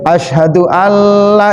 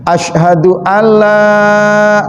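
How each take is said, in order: First: The vowel in 'la' is clipped short. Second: The vowel in 'la' is held long. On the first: It becomes a positive statement. The speaker calls it wrong. "lanya kadang di sini juga pendek" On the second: It states a negation. The speaker calls it right. "lanya di situ panjang"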